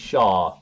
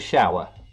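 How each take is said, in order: First: The w is dropped, making one syllable. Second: The w is pronounced, making two syllables. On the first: "we won't pronounce the w in shower. It'll be one word, it'll just be shar" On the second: "You mean a shower?"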